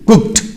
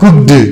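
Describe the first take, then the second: First: The ending is said as a t. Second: The ending is not said as a t. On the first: The speaker calls it right. "E D becomes ta" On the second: The speaker calls it wrong. "It's not cooked"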